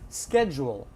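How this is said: It is said in an American accent. "This is a Los Angeles accent"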